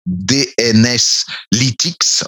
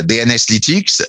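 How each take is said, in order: First: "D N S Lytics" spelled letter by letter, slow and careful; "D N S Lytics" said slowly, each letter distinct. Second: Said in the usual way. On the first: Shown as a demonstration. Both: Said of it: "c'est comme ça qu'il s'appelle".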